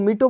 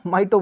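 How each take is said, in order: First: It begins with 'mee' and a plain t. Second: It begins with 'my' and a plain t. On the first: "कुछ लोग इसको मीटो बोलेंगे" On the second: "कुछ लोग इसको माइटो बोलेंगे"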